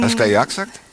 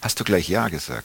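First: It is said with a Swabian regional accent. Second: It is said in standard German pronunciation.

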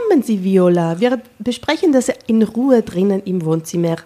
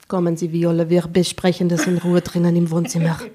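First: It is said in a warm, friendly tone. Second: It is said in a cool, matter-of-fact tone. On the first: The woman seems very nice. "Du hast es viel zu freundlich gesagt" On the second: The woman is serious and reserved. "Du musst das sachlicher sagen"

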